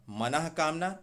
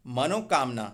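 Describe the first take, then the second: First: मनः कामना with breathed H before क; correct form मनः कामना. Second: मनोकामना joined with an O; wrong form मनोकामना. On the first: Teacher corrects मनोकामना, visarga form. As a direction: say मनः कामना, manah then kaamna. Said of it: "तो मनः कष्ट होगा". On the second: Teacher shows the common error, mistaken form. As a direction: say मनोकामना, mano before kaamna. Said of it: "मनोकष्ट नहीं". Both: Shown as a demonstration.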